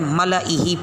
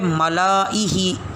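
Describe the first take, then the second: First: The vowel after the L is short. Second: The vowel after the L is long. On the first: It skips the silent alif. The speaker calls it right. "सही पढ़ना है मलई ही पढ़ेंगे" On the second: It follows the written alif. The speaker calls it wrong. "लिखते हुए मलाई ही महसूस होगा"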